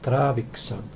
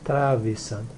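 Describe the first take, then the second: First: The middle has a 'ks' sound, with 'k' before 's'. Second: The middle sounds like a plain 's' with no 'k'. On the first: The speaker calls it right. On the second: The speaker calls it wrong. "so that's my mistake"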